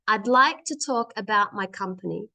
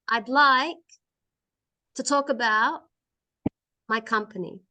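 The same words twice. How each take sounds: First: It flows together without any pauses. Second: It is broken up by many pauses. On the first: The speaker calls it right. "Not fast, but nice and together" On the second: The speaker calls it wrong. "So not like this. ... That's not a good way to read. ... There's too many stops in my word"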